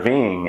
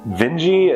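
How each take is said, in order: First: The name is said rhyming with ring. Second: The name is said not rhyming with ring. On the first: The speaker calls it wrong. "been referring to the Vinges as the Vings. Uh, Werner Ving has a great ring" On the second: The speaker calls it right. "Vinge is apparently the correct pronunciation"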